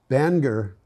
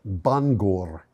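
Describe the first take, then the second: First: Bangor is said in the local American way. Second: Bangor is said with a Welsh pronunciation.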